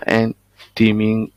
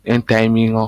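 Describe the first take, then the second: First: "timing" dit à la française, « ti-ming »; prononciation francisée. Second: "timing" said English-style, "tie-ming"; prononciation anglaise. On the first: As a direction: say "timing" with a French first syllable, "tee-ming". (« timing » prononcé « timine », avec un i français) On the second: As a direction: correct yourself to "timing" with an "aï" first syllable. (« timing » prononcé « taïming », à l'anglaise) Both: Real, not acted. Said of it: "je suis pas trop bon en anglais".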